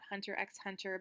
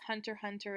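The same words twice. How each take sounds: First: The x between the words is pronounced. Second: The x between the words is silent. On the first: The speaker calls it wrong. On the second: The speaker calls it right. "I know the X is supposed to be silent"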